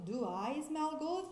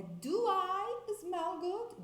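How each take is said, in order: First: Said in the usual way. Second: Correct question. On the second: Shown as a demonstration. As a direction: do I smell good raised high and slow. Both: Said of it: "Não, é".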